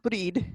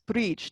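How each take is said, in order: First: The name ends in a d sound. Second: The name ends in a j sound. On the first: The speaker calls it wrong. "not Breed" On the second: The speaker calls it right. "so it sounds like a J sound"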